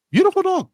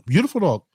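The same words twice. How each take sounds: First: High, gushing praise for the little dog; doting high coo about the new puppy. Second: Said in the usual way. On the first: Real, not acted.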